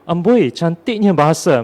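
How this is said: It is said in a sincere, admiring tone. The beauty of the language is truly admired. "kalau kita lihat daripada sudut pandang yang positif"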